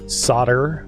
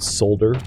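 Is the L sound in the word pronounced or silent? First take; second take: silent; pronounced. First: The word is said with a silent L. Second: The word is said with an audible L. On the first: The speaker calls it right. "I almost said the L" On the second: The speaker calls it wrong. "not solder"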